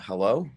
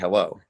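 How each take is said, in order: First: The voice rises at the end of the word. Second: The voice falls at the end of the word. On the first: It asks whether anyone is there. "this is more of a hello. Like, I guess asking if we're live" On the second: It is a plain greeting. "Normally you say hello"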